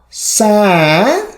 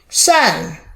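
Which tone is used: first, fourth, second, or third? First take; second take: third; fourth. First: It is said with the third tone. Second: It is said with the fourth tone. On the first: "Third tone" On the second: "Fourth tone"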